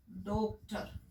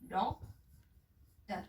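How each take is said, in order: First: डॉक्टर said with a closed Hindi o, as "doktar"; डॉक्टर with a plain closed o, not the open English vowel; wrong Hindi o vowel. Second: डॉक्टर drawn out very slowly with an open English "aw" vowel, "dawktar"; slow, careful डॉक्टर with a rounded open "aw" sound; correct open o. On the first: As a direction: say डॉक्टर the wrong way, with a pure o sound. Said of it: "डॉक्टर जो है वो सही pronunciation नहीं है". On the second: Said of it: "तो इससे हमारा बन जाता है". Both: Shown as a demonstration.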